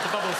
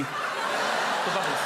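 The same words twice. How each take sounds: First: Said in the usual way. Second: Slow savouring. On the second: Real, not acted.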